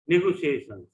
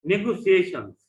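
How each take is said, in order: First: Said in the usual way. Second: নেগোসিয়েশনস said up and loud, syllable by syllable; teacher modelling নেগোসিয়েশনস for the class; নেগোসিয়েশনস modelled clearly; model pronunciation. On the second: Shown as a demonstration. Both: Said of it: "try to pronounce the words correctly".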